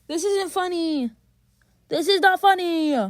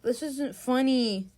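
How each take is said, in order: First: High whine building to a loud cry; escalating protest. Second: Restrained complaint. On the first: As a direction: protest higher, then louder. Complaint repeated, escalating in frustration. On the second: First complaint, escalates on repeat. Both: Real, not acted.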